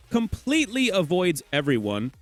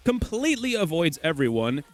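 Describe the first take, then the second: No difference in how they are said.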